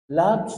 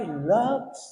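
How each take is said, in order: First: Said in the usual way. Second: A tender Loves on the phone to his wife; sweetly said Loves. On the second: Retold or imitated. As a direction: coax Loves like a loving husband. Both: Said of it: "ang ganda pa ng sabi".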